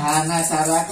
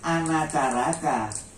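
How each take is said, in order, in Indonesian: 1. Kata itu dimulai dengan bunyi h. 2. Kata itu dimulai dengan bunyi vokal. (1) "Kalau orang-orang sekarang nyebutnya Hanacaraka itu keliru" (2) "Sebetulnya kita harus bacanya Anacaraka"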